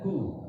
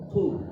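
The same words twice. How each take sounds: First: The first consonant is light, made toward the front. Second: The first consonant is thick, made deep in the throat. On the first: The speaker calls it wrong. "bukan ku" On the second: The speaker calls it right. "Jadi tebal. tapi ku"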